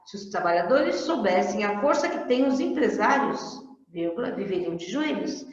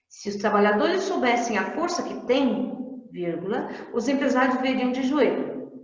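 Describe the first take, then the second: First: There is a pause after 'empresários'. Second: There is a pause after 'têm'.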